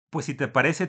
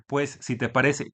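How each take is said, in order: First: Said in the usual way. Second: Slow, run-together reading of a message with no commas; slow unpunctuated reading. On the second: Retold or imitated. Reading the printer's comma-less message aloud, slow and run-together. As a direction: drag it out as if no punctuation. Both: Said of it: "todo sin comas".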